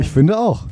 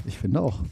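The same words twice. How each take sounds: First: Said in the usual way. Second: Softer, as if far from the mic. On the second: Real, not acted. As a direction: say it away from the mic. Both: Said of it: "Ich bin so leise auf einmal wieder".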